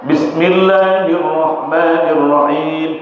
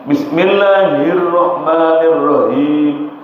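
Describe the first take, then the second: Both takes have the same delivery.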